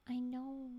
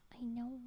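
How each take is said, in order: Both takes have the same delivery.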